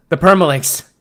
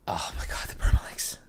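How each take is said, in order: First: Loud, high outburst of dismay; yelled in alarm; exasperated shout. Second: Hushed, voiceless realization; aghast whisper; whispered dismay. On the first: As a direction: cry it out as if disaster has struck. Outburst over permalinks. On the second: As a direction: whisper it as the mistake dawns on you. Dismay at forgotten permalinks. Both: Real, not acted.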